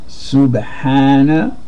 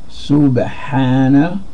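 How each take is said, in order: Both takes have the same delivery.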